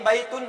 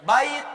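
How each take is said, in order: First: The word ends with an added -un sound. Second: The word ends on a bare t sound. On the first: The speaker calls it wrong. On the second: The speaker calls it right. "matikan aja ujungnya, nggak usah pakai an in un"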